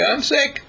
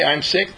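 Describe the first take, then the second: First: Much higher, small lamb's plaintive voice; lamb's bleating voice. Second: Said in the usual way. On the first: Retold or imitated. The lamb answers its owner in a high bleat. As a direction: bleat it like a sick little lamb. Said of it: "the lamb will say". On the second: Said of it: "if you say".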